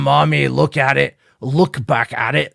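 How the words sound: It is said in a put-on Scottish accent.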